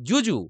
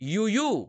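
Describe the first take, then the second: First: The word begins with a hard 'j' sound. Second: The word begins with a soft 'y' sound. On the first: The speaker calls it wrong. "ইউইউ নাকি জুজু" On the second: The speaker calls it right. "তাই আমরা উচ্চারণ করব ইউইউ"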